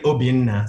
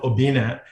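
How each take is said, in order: First: The name is said with its native accent. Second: The name is said in a plain anglicized way. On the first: This is the name's true form. "It's actually Obinna, so you need an accent to pronounce it correctly" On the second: This is the easy form used for others. "I call myself Obina"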